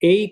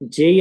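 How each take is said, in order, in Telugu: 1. ఈ పదం y శబ్దంతో మొదలవుతుంది. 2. ఈ పదం j శబ్దంతో మొదలవుతుంది. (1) "అలా చదవకూడదు" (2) "జై అని చదవాలి"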